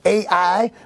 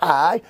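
First: The name is said as two syllables. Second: The name is said as one syllable. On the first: The speaker calls it wrong. "Some pronounce it A-I" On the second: The speaker calls it right. "it's pronounced I"

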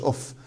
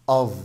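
First: The word ends with a voiceless f sound. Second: The word ends with a voiced v sound. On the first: The speaker calls it wrong. "مش اوف" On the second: The speaker calls it right. "الاف هنا بتنطق في اوف"

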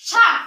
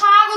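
First: The word ends in a voiceless k sound. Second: The word ends in a voiced g sound. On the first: "যেটা তালবস্যাকার ক" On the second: "অনেক সময় আমরা শাক উচ্চারণ করে থাকি"

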